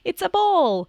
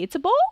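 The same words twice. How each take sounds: First: The pitch falls at the end like a statement. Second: The pitch rises at the end like a question. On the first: It states what the thing is. The speaker calls it right. "to it's a ball" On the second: It asks whether the thing is a ball. The speaker calls it wrong. "but they say, it's a ball?"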